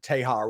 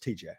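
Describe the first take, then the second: First: The name is said as one word, 'Tejar'. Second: The name is said as the letters T-J. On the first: The speaker calls it wrong. "All the people like try to pronounce it Tejar" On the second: The speaker calls it right. "whatever it's TJ"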